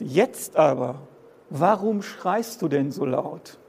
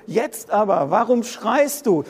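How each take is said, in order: First: Slow scripture reading. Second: Higher and louder, pressing the question; preaching it out. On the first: Shown as a demonstration. Preacher reads Micah's question to the congregation, slow and calm. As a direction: read the verse slowly and evenly. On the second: Acted. Preacher hurls the prophet's question at the congregation, higher and louder. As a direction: throw the prophet's question at them.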